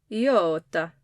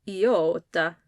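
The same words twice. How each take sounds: No difference in how they are said.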